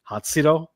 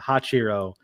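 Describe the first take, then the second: First: The middle consonant sounds like 'ts'. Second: The middle consonant sounds like 'ch'. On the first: This is how the narrator said it. The speaker calls it right. "he consistently pronounced it" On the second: This is how the author had been saying it. The speaker calls it wrong. "I've been pronouncing as"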